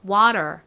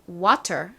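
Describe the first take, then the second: First: The middle t is a soft r-like flap. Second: The middle t is a clear t sound. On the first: "미국식 발음도 따라해볼게요. T를 리을처럼 발음해주세요" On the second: "저희 정석 발음"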